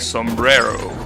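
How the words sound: It is said with an English accent. The speaker calls it wrong.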